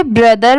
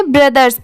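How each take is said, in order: First: ब्रदर ending on r, no s; singular pronunciation. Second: ब्रदर्स with an s sound after the r; plural pronunciation. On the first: Teacher contrasting singular with plural for learners, model pronunciation. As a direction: model ब्रदर without the final z sound. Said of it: "तो इसे ब्रदर पढ़ेंगे". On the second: Teacher showing what the added s does, model pronunciation. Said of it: "तो इसे ब्रदर्स पढ़ेंगे". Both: Shown as a demonstration.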